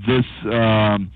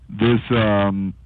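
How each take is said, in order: Both takes have the same delivery.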